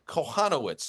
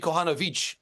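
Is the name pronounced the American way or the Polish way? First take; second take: American; Polish. First: The name is said with Polish American pronunciation. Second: The name is said with native Polish pronunciation. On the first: This is how it is said locally. "at least in Polish American dialect, would be" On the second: This is how it is said in Poland. "If we were in Warsaw, it'd be"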